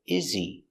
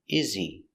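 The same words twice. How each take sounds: Both takes have the same delivery.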